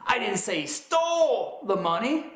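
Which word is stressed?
stole. The stress is on "stole".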